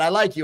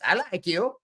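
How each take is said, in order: First: It is said in his normal voice. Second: It is said in a Borat impression voice.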